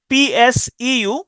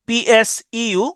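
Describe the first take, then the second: No difference in how they are said.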